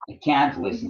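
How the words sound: The word can carries strong stress. The speaker is not able to do it. "if you stress that word, it means that you state it negatively"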